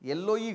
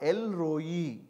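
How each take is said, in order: First: The middle sounds like a double L, no R. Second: The middle has an L followed by an R. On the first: The speaker calls it wrong. "ఎల్లోయి కాదు" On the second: The speaker calls it right. "ఎల్ రోయి ఎల్ రో అట్లా పలకాలి"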